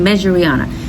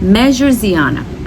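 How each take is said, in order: First: An R sound comes before the ending. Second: A Z sound comes before the ending. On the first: The speaker calls it wrong. "I kept on saying Measure-Riana. I forgot the S in there" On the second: The speaker calls it right. "This is Measure-Ziana"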